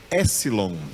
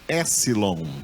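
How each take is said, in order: Both takes have the same delivery.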